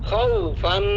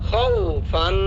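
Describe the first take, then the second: Both takes have the same delivery.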